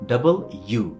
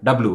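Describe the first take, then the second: First: It is said in three full syllables. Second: It is squeezed into two syllables. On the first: The speaker calls it right. "সেটা হচ্ছে কি ডাবল ইউ" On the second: The speaker calls it wrong. "এটা ডাব্লু না"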